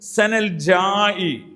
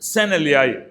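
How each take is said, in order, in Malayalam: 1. രണ്ടാമത്തെ വാക്ക് 'j' ശബ്ദത്തിലാണ് തുടങ്ങുന്നത്. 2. രണ്ടാമത്തെ വാക്ക് 'y' ശബ്ദത്തിലാണ് തുടങ്ങുന്നത്.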